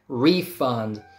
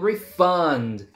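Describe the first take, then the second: First: The stress is on the first syllable. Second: The stress is on the second syllable. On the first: It is a noun: money given back. "if it's a noun, first syllable gets stressed" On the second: It is a verb: to give money back. "It's a verb"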